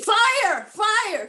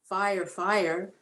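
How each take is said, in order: First: It is said loudly and intensely. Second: It is said calmly and quietly. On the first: There is a real emergency. The speaker calls it right. "There's a reason why you're that, you know, intense" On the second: There is no real urgency. The speaker calls it wrong. "no one runs around saying"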